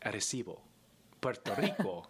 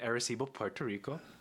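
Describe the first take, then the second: First: It is said with a Spanish accent. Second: It is said with an English accent.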